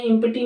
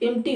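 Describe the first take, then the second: First: एम्प्टी as im-pi-ti; sounded P. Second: एम्प्टी as im-tee; silent P. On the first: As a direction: put a separate P in एम्प्टी. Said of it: "नहीं होती है". (एम्प्टी में प साफ़ बोलें) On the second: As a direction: skip the P in एम्प्टी. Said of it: "पी silent". (एम्प्टी को इम्टी बोलें) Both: Shown as a demonstration.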